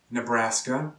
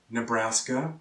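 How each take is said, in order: Both takes have the same delivery.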